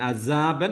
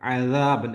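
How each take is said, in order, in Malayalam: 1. വ്യഞ്ജനം സാധാരണ s ശബ്ദമാണ്. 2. വ്യഞ്ജനം മൃദുവായ th പോലുള്ള ശബ്ദമാണ്. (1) "അസാബൻ എന്ന് പറഞ്ഞു പോരുത്" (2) "അദ നാവിൻ്റെ അറ്റത്ത്"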